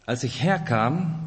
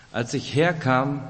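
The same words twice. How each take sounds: The two takes are said the same way.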